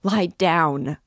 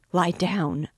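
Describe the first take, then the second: First: Louder, desperate shout; crying out. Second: Loud, urgent command; crying out. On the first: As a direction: yell it, near panic. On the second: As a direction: shout it at him to stop. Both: A narrator's reading. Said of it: "cried Katerina Ivanovna".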